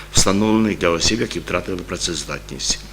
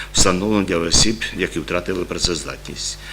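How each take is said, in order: No difference in how they are said.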